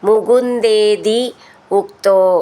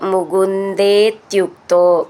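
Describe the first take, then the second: First: The two words are said separately. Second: The two words are said joined together.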